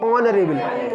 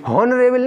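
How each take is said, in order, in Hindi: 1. शब्द सीधे एक स्वर ध्वनि से शुरू होता है। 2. शब्द की शुरुआत एक साफ़ सुनाई देने वाली h ध्वनि से होती है। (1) "एच साइलेंट होगा" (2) "हॉनरेबल नहीं"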